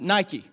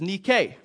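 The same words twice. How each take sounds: First: It is said with the everyday English pronunciation. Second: It is said with the Greek pronunciation. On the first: This is how the brand name is commonly said. "or as you pronounce it" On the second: This is the original Greek word for victory. "the feminine form, which is nike"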